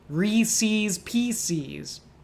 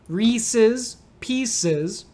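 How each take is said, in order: First: The second vowel of 'Reese's' is a long E. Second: The second vowel of 'Reese's' is short. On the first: "some people will make the second E a long E too" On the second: "One is long E sounds on re and P"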